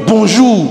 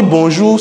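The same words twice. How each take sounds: First: High "Bonjour" dropping at the end; curt falling greeting. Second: "Bonjour" rising at the end; inquiring intonation. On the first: Greeting when the day is no longer good, falling "Bonjour". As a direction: land Bonjour hard, not asking anything. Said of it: "c'est pas le même bonjour". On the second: Greeting someone to ask for news, rising "Bonjour". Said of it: "c'est pour demander une nouvelle". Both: Shown as a demonstration.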